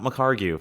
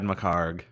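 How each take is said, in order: First: The name ends with an extra goo syllable. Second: The name ends with a bare g sound. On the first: The speaker calls it wrong. "It is not McCargu" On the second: The speaker calls it right. "And I pronounced your name right"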